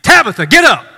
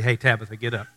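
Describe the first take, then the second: First: It is said as a loud, emphatic command. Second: It is said casually and softly.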